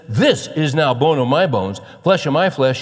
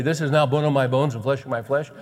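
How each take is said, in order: First: Loud, high, amazed exclamation; Adam bursting out in excited disbelief. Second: Said in the usual way. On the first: Acted. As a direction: proclaim it loudly, thrilled beyond belief. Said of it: "He's excited". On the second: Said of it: "We don't talk like that".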